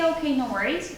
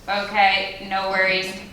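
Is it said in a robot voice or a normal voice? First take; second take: normal voice; robot voice. First: It is said in a normal voice. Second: It is said in a robotic voice.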